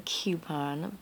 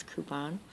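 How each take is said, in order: First: "coupon" with a y glide, kyoo-pon. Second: "coupon" with a plain oo, koo-pon. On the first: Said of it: "I know people who say coupon". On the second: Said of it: "but to me it's coupon". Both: Shown as a demonstration.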